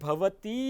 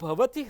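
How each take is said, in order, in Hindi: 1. अंतिम स्वर लंबा बोला गया है। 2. अंतिम स्वर छोटा बोला गया है। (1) "એવું દીર્ઘ ઉચ્ચારણ કરીએ" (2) "હ્રસ્વ ઉચ્ચારણની જગ્યાએ"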